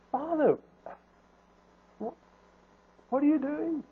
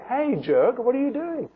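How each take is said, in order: First: Soft, high, gentle plea; loving concern. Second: Mock indignant scolding; rude challenge. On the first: Acted. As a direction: plead gently, out of love for him. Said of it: "out of love, out of concern". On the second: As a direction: confront him as if he were a jerk. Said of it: "He didn't say that".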